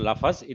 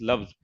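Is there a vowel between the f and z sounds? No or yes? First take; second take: yes; no. First: A vowel is heard between the f and z. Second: The f and z run together without a vowel. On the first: The speaker calls it wrong. "it is not lafaz" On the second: The speaker calls it right. "it is loves"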